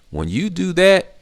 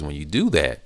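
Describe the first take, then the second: First: "that" lifted high and slowed, pitched way up; stressed repeat. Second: Said in the usual way. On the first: Shown as a demonstration. Driving home the point to learners, high slow stress. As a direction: repeat it, stretching "when you do that" high and slow.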